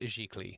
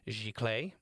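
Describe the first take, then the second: First: The word is given a French pronunciation. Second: The word is given an English pronunciation. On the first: "the French pronunciation was very clear that it was giclée" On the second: "in English oftentimes said giclée instead"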